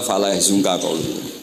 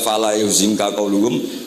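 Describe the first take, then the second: First: The verb begins with a ya sound. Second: The verb begins with a yu sound. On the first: The basic verb is already transitive. "cukup dibaca" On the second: The verb is read in its causative form. "enggak perlu dibaca"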